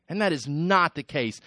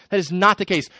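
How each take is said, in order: First: Said in the usual way. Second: That is not the case, with not stressed and said higher and louder; repeated louder. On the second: Shown as a demonstration. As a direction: hit the word not on the repeat.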